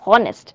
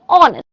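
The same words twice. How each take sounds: First: The word begins with an audible h sound. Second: The word begins with a vowel, h silent. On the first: The speaker calls it wrong. "We do not pronounce it honest" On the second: The speaker calls it right. "We pronounce it as honest"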